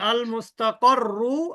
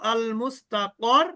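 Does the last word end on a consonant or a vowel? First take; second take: vowel; consonant. First: The word ends with a final 'u' vowel. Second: The word ends on the doubled consonant. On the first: The reading carries on without a stop. The speaker calls it wrong. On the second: The reader stops on this word. The speaker calls it right.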